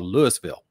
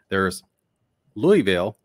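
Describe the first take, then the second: First: It is said the way outsiders say it. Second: It is said the way newscasters say it. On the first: The speaker is from far outside the area. "if you're way out of the area, it's called Louisville" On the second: The speaker is a professional or reporter. "your reporters and your news people call it Louisville"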